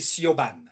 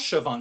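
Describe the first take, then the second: First: The name is sounded out letter by letter. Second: The name sounds like 'shi-vawn'. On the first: This is how a French reader guesses it from the spelling. The speaker calls it wrong. "pour moi, c'est Siobhan" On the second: This is how the Irish name is really pronounced. The speaker calls it right. "Mais ça se prononce Siobhan"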